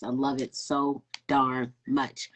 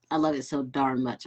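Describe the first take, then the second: First: Slow, with darn leaned on as a stand-in swear; slow, stress on darn. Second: Said in the usual way. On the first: Shown as a demonstration. Host savoring the near-cuss, slow with darn pressed. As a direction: linger on darn, as if it almost came out as a curse. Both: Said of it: "I almost cussed".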